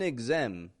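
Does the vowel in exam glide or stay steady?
steady. The stressed vowel stays steady without gliding. The speaker calls it wrong.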